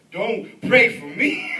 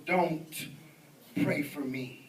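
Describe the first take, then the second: First: Loud, drawn-out comic plea breaking into laughter; mock alarm. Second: Low, measured mock menace; devil worshipper's warning. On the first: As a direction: beg him in pretend panic, slowly and loudly. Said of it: "And then I said". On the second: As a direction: voice an ominous refusal, pitched down. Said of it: "And he goes".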